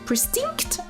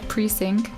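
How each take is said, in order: First: The second syllable has an added t sound. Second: The second syllable has no added t sound. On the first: The speaker calls it wrong. "I'm still so dumb and can't say it" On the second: The speaker calls it right. "You had it right"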